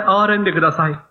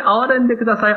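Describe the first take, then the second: First: Said in the usual way. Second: Higher, pleading call; crying out for mercy. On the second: Retold or imitated. Blind man calls out to Jesus, begging aloud. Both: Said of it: "大声で".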